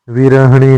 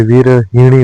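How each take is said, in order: First: विरहिणी said as "virahani"; wrong vowel. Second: विरहिणी with i after h; correct vowel. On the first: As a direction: lose the i after h in विरहिणी. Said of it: "नहीं होता है". (विरहिणी को विरहणी जैसा) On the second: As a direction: sound हि in विरहिणी. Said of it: "होता है". (विरहिणी में स्पष्ट हि) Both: Shown as a demonstration.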